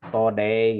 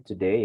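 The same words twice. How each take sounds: First: "today" said as to-day, with an o sound; wrong way to say today. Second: "today" said as tu-day, with a u sound; right way to say today. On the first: Teacher showing the wrong "today" with to-day. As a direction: show the mistake "today" as to-day, a touch louder. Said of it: "bukan "today". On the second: Teacher demonstrating "today" as tu-day. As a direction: model "today" with tu at the start. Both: Shown as a demonstration.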